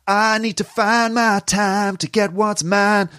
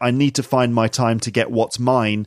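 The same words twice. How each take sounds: First: Find, time and mine have flattened single vowels. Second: Find, time and mine have gliding double vowels. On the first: "in the American singing accent" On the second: "I would say"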